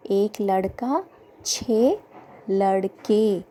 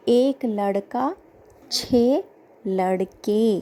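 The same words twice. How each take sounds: The two takes are said the same way.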